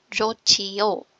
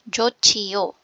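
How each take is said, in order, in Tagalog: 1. Ang gitnang katinig ay aspirated na tunog ng ch. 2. Ang gitnang katinig ay aspirated na tunog ng ch.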